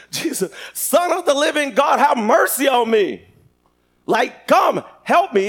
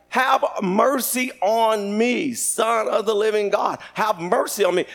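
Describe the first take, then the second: First: Raised, urgent acted plea; crying out. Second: Slow, stretched acted supplication; drawn-out plea. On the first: Blind Bartimaeus screaming out to God for mercy, crying out. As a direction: call out higher, pleading for help. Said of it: "He was screaming out to God". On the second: Blind man praying to Jesus, slow drawn-out pleading. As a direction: draw out each phrase as a plea. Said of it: "He's like".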